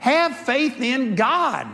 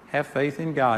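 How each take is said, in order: First: The words are said in an exasperated tone. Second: The words are said in a calm tone. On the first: The listeners are being scolded for their lack of faith. "it was more like, ... What's wrong with you?" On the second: A plain, gentle instruction. "instead of saying"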